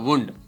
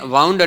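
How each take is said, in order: First: The vowel sounds like 'oo' in 'moon'. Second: The vowel sounds like 'ow' in 'how'. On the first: It names an injury. "આને તમે વુન્ડ બોલો" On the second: Something was wrapped around. "વાઉન્ડ એટલે વીંટાળ્યું"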